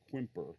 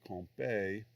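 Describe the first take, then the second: First: It is said with an American English pronunciation. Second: It is said with a French pronunciation. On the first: This is what most people in the trade call it. "in the trade in the United States, most people call it Quimper" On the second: This is the proper pronunciation. "the proper uh, French pronunciation might be"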